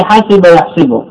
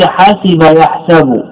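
First: حسب يحسب with the kasra on the sin of يحسب; teacher showing the kasra in يحسب; vowel demo. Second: حسب يحسب said slowly with the fatha on the sin of يحسب; slow teaching read of حسب يحسب; vowel demo. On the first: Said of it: "وسمع فيه". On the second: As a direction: draw out يحسب to show the fatha. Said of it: "سمع فيه الفتح فقيل". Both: Shown as a demonstration.

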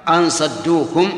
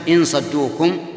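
First: "أن" read with an a vowel, as in "an"; slow "أن صدوكم", opening on hamza plus short a; fatha on the hamza. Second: "إن" read with an i vowel, as in "in"; kasra on the hamza. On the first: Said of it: "في الآية قراءتان". (فتح الهمزة في "أن") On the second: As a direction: open "إن صدوكم" with hamza plus short i. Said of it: "وسواء كانت القراءة بكسر الهمزة". (كسر الهمزة في "إن") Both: Shown as a demonstration.

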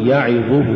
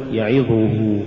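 First: يعظه with even short vowels; full vowels. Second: يعظه with its short vowels distorted; uneven vowels. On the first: Teacher models correct recitation, يعظه evenly voweled. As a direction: give each syllable of يعظه its due. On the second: Teacher shows crooked reading, يعظه uneven. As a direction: lose the even timing of يعظه. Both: Shown as a demonstration. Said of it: "ولا تقل".

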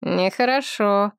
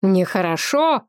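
First: Slow, musing understatement; thoughtful drawl. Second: Quicker, incredulous repeat with a lifted ending; indignant exclamation. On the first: Seti reflects on what he has just heard, thoughtfully. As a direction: stretch it out pensively. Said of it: "задумчиво протянул Сети". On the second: Medjay throws Seti's word back at him, exclaiming. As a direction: echo it back as an exclamation, rising at the end. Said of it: "воскликнул Меджай". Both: A narrator's reading.

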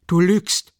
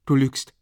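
First: Viel höher, laut geschrien; besinnungslose Wut. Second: Scharf und lauter; wütend. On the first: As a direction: schrei es in rasender Wut. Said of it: "besinnungslose Wut". (in besinnungsloser Wut geschrien) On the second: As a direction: entschieden widersprechen. Dunja contradicts him. (wütender Widerspruch) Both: A narrator's reading.

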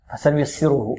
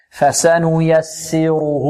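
First: "فسنيسره" rushed, vowels clipped short; snatch the short vowels of "فسنيسره". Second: "فسنيسره" very slow, each vowel given its full length. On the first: Teacher warns students, showing "فسنيسره" with snatched vowels. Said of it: "نحذر من اختلاس الحركات هنا". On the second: Teacher corrects for students, "فسنيسره" with full measured vowels. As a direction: draw out every vowel of "فسنيسره". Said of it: "لا". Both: Shown as a demonstration.

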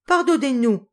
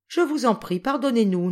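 First: High, loud cry for forgiveness. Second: Higher, imploring plea; pleading. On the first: The four older children begging Jacques and Paul, crying out loud. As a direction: call out all at once. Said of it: "s'écrièrent tous à la fois les quatre grands". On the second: Sonushka pleading with the French boys, imploring. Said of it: "dit Sonushka d'un air suppliant". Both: A narrator's reading.

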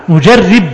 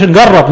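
First: نجرب said nujarrib with kasra on the ra; careful nujarrib, the ra clearly with i; نجرب with kasra on the ra, as it should be said; correct pronunciation. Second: نجرب said nagarrab with a fatha on the ra; the mistaken nagarrab, ra with open a; نجرب with fatha, as not to say it; wrong pronunciation. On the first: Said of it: "نجرب بكسر الراء". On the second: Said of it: "ما تقولش نجرب". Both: Shown as a demonstration.

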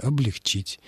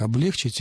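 First: Облегчить stressed on the final syllable чить; correct stress. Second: Облегчить stressed on the middle е; mistaken stress. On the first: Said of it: "Правильное ударение". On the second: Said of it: "это очень распространённая ошибка". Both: Shown as a demonstration.

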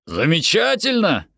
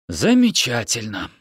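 First: ЗАМЕЧАТЕЛЬНО cried out high; delighted exclamation. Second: A touch of dry dismay on ЗАМЕЧАТЕЛЬНО; resigned irony. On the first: Parent hears the children may stay, delighted exclamation. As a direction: exclaim it brightly, pitch jumping up. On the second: Yoni is left with the children, mildly ironic. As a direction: say it slightly raised, falling away, no delight. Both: Acted.

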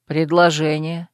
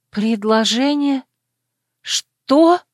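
First: Low voice of the proposing lover; lover's answer. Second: Higher questioning voice, jumping up at the end; stunned echo. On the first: Lover answers her question as he proposes, low and settled. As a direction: state it low, as a simple answer. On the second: Heroine stunned by her lover's proposal, incredulous. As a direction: echo it slowly, then burst out in disbelief. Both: A narrator's reading.

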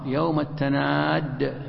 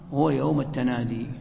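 First: "التناد" said slowly with the final dal doubled, tanādd. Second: Said in the usual way. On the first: Shown as a demonstration. Teacher showing the other reading of "التناد" with a doubled dal. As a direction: lean on a geminated dal at the end of "التناد". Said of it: "بالتشديد، الدال مشددة". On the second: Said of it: "وهناك قراءة أخرى".

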